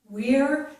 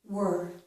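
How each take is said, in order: First: The vowel is a full ear sound. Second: The vowel is a reduced er sound. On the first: "Once with the stressed version" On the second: "and then again with the unstressed version"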